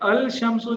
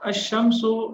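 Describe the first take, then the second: First: The L is clearly pronounced before sh. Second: The L merges into a doubled sh. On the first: The speaker calls it wrong. "ये पढ़ने में मुश्किल पेश आती है। ठीक है, ये अजीब लगता है" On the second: The speaker calls it right. "लाम पढ़ना मुश्किल है, इसलिए उसको साइलेंट कर दिया जाता है"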